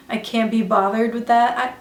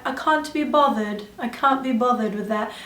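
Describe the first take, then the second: First: Said in the usual way. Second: Put-on playful English accent, broad "ah" in can't; imitated British accent. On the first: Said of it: "I literally love their accents". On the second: Vlogger mimicking English beauty YouTubers, imitated British accent. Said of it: "people from England that have beauty channels".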